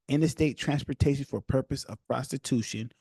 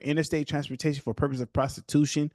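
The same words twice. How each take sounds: First: The phrase is read at a slower pace. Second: The phrase is read at a fast pace. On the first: The speaker calls it right. "I'm going to slow down" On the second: The speaker calls it wrong. "I'm reading fast"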